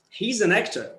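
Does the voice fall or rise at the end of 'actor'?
fall. The voice falls at the end. The sentence is finished. "when you use a falling tone, it means that you are going to stop"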